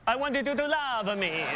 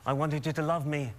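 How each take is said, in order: First: It is spoken in an Italian accent. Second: It is spoken in a British accent. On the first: The speaker calls it right. "you're in Italy. ... You should be like" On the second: The speaker calls it wrong. "Why are you doing a British accent?"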